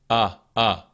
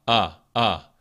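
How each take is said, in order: No difference in how they are said.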